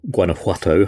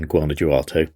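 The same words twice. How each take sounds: First: The name is said with a Spanish-style pronunciation. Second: The name is said with an English-style pronunciation. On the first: The speaker calls it right. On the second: The speaker calls it wrong.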